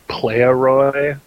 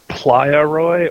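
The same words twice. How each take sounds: First: The first part sounds like English player. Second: The first part sounds like Spanish playa. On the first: The name refers to gangster slang. "like some sort of gangster culture thing" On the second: The name refers to a beach. "like the Spanish word for beach"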